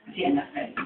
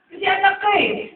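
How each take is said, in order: First: A soft unvoiced whisper. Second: High ringing preacher's shout. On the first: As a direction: lean in and breathe it. Whispered aside to listener. (pabulong na sinabi) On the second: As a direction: proclaim it to the back row. Shouted climax of sermon. (malakas na sigaw) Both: Real, not acted.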